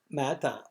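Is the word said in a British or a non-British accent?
British. It is said with a British accent, no final r. "she's English. You could tell from the way that she mata"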